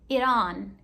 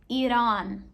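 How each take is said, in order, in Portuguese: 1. O t soa como um r rápido. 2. O t soa como um r rápido.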